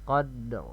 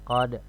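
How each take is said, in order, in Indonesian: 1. Bunyi r di akhir terdengar dengan jelas. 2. Bunyi r di akhir dihilangkan. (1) "Ada huruf ro-nya terbaca" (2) "tidak terdengar ro-nya ... Ini salah"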